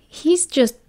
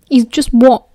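First: Higher, searching for words, left hanging; hesitant criticism. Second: Louder, sharp interruption; sharp challenge. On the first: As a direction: trail off before the insult. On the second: Remus defends his friend against Christopher, sharply. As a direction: cut in sharply, daring him to finish. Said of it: "Remus said sharply". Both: A narrator's reading.

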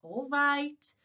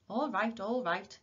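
First: High, loud shout over the shoulder; shouted back. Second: Mildly raised, dismissive agreement; brushing off. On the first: Tom to the warden behind him, shouted back. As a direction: yell it back to shut him up. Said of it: "shouted back Tom over his shoulder". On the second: Tom walking on from the nagging warden, brushing off. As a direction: concede it to get rid of him. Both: A narrator's reading.

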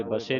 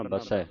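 First: ਬਸੇ with a closed "ay" ending; mistaken e ending. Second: ਬਸੈ with a wide open "eh" ending; ਬਸੈ, last vowel open. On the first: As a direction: end ਬਸੇ on a narrow e. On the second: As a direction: end ਬਸੈ on a broad ai. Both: Shown as a demonstration. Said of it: "ਬਸੇ ਨਹੀਂ ਪੜ੍ਹਨਾ".

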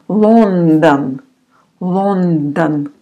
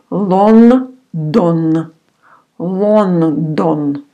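First: London said "LON-dan", stress on first syllable; unstressed O as A. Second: London in two separate syllables, both with full O; spelled-out pronunciation. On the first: Teacher shows Russian London, second O pronounced like A. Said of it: "The second one you pronounce like A". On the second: Teacher sounds out Russian London for learners, both O's full. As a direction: say London as "LON-DON", as written. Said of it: "the first O is stressed". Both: Shown as a demonstration.

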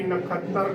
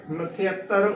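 First: ਨਖੱਤਰ said na-khat-tar; no glide after the kh in ਨਖੱਤਰ; "nakhattar" for ਨਖੱਤਰ; mispronunciation demo. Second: ਨਖੇਤਰ said na-khi-ak-tar; "nakhiaktar" for ਨਖੇਤਰ; correct pronunciation. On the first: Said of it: "ਗਲਤ ਉਚਾਰਨ ਹੋਵੇਗਾ". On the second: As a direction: glide from i to a after the kh in ਨਖੇਤਰ. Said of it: "ਉਚਾਰਨ ਕਰਨਾ ਹੈ". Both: Shown as a demonstration.

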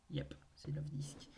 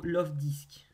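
First: Breathy whisper, no voice. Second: Said in the usual way. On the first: Real, not acted. Streamer whispering the name to viewers, hushed. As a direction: whisper it like a secret.

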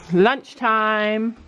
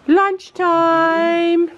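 First: Said in the usual way. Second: High sing-song call. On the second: Real, not acted. Vlogger calls the horses in for lunch. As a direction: call Lunchtime across the field.

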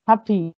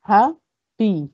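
First: Said in the usual way. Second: "happy" split into "ha", pause, "py"; each half of "happy" said separately, "ha... py"; syllable by syllable. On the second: Shown as a demonstration. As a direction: break "happy" into two clear beats. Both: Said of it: "Yes, two syllables".

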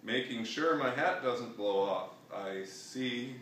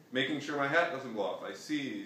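First: Said in the usual way. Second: Higher and faster, hat stressed; lively quick retake; quicker higher retake. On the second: Shown as a demonstration. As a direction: rush it up higher the second time. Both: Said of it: "reads the line again".

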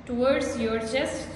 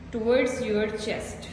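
The two takes are said the same way.

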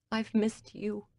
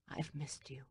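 First: Said in the usual way. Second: Breathless unvoiced whisper. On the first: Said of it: "The words all but rushed past my lips". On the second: A narrator's reading. Gordon whispering to Daisy as they embrace, hushed. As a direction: whisper it close into her ear. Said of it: "he whispered".

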